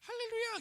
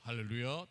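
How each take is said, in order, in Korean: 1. 높고 가느다란 목소리로 말해요. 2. 낮고 굵은 목소리로 말해요. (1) "목소리가 갑자기 할렐루야 이러면 깨잖아요" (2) "목소리도 할렐루야 딱 그러면은 굉장히 멋있지 않습니까"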